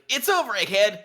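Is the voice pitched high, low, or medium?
high. The voice is pitched at its highest.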